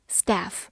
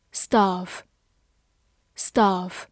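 First: "staff" in the American way, with a flat open a; American pronunciation. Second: "staff" said twice in the first of two readings. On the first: Teacher models American "staff" for students. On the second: Teacher models "staff" for students. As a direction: model "staff" before the American one. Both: Shown as a demonstration. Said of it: "美式发音".

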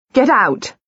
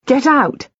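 First: Frightened second cry; panicked repeat. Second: Frightened cry to leave; panicked order. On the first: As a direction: drive them out again, desperate. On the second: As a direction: drive them from the room. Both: A narrator's reading. Panicked shouting at visitors.

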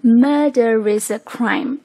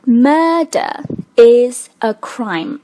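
First: "murder is" joined as murde-ris; linked with r. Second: "murder is a crime" slow, word by word; unlinked. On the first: Teacher showing the linked result with r. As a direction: slowly link "murder is a crime" with an r before "is". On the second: Teacher reading the sentence before linking, unlinked. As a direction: separate "murder" and "is", no r between. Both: Shown as a demonstration. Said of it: "做连读的时候就变成了".

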